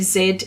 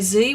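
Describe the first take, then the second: First: The letter is said as 'zed'. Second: The letter is said as 'zee'. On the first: This is how Australians say it. "We say Z in the alphabet" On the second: This is not how Australians say it. "here in Australia we don't say Z"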